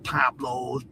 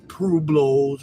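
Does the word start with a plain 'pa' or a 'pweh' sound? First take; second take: pa; pweh. First: The word starts with a plain 'pa' sound. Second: The word starts with a 'pweh' sound. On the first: The speaker calls it wrong. "Not Pablos" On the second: The speaker calls it right.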